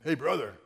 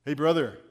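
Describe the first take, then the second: First: Blunt soldier's hail, repeated; lightly voiced tough Marine; tough Marine greeting. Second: A hint of a gruff Marine calling out; loud, blunt soldier's hail; lightly voiced tough Marine; tough Marine greeting. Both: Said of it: "This is how he talks sometimes".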